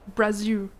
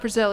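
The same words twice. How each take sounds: First: The final L is said the Brazilian way. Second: The final L sounds like an American English L. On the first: The speaker calls it right. "there's like a way that you guys say the L at the end that's different" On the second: The speaker calls it wrong. "it's not Brazil"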